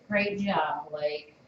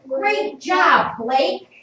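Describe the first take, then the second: First: It is read plainly, without expression. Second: It is read with lively, excited expression.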